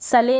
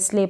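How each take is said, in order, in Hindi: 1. s और l के बीच एक स्वर है। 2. s सीधे l से जुड़ा है। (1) "सले नहीं पढ़ेंगे" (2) "एल से पहले जो एस है उसको हम आधा प्रोनाउंस करेंगे"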